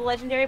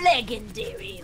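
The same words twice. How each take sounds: First: The word is said normally, in a plain voice. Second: The word is said oddly, in a silly voice. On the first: The speaker calls it right. "everybody knows it's called the legendary" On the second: The speaker calls it wrong. "he does this dumb voice"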